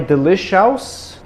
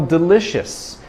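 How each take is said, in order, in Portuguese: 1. O final é um som 'ous' soletrado. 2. O final é um som curto de 'us'. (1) "Não é delicious" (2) "esse O U S tem o som de us"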